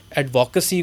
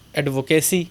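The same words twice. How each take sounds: First: "ایڈوکیسی" as "ad-vo-kuh-see"; other accent. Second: "ایڈوکیسی" as locally said, "ad-vo-kay-see"; Pakistani pronunciation. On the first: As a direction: say "ایڈوکیسی" with a short, reduced "kuh". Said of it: "اس کو کہا جاتا ہے". ("ایڈوکیسی" انگریزی لہجے میں، مختصر "ک" کے ساتھ) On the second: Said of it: "ہمارے پاکستان کے اندر کہتے ہیں". ("ایڈوکیسی" پاکستانی تلفظ میں، لمبے "کے" کے ساتھ) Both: Shown as a demonstration.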